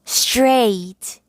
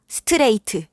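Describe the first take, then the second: First: The consonants link into a single syllable. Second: Vowels are inserted, making several syllables. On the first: The speaker calls it right. "한 번씩만 성대를 울려서 단 한 번에 한 단어씩" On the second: The speaker calls it wrong. "스트레이트 ... 라고 하지 않을 거예요"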